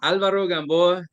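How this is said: The name is said with a Spanish pronunciation. "That's that's the Spanish pronunciation"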